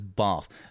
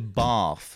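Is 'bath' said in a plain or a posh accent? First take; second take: plain; posh. First: It has a plain vowel with no added r. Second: It has a long posh vowel, like 'barth'. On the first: "There's no R in bath" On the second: "any posh accent generally throws in an extra letter when it's not needed"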